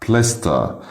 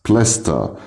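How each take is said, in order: The two takes are said the same way.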